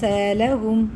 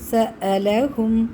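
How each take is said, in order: First: The glottal stop is not clearly pronounced. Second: The glottal stop is clearly pronounced. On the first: The speaker calls it wrong. "അങ്ങനെയല്ല" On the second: The speaker calls it right. "ഹംസ ക്ലിയർ ആക്കി പറയും"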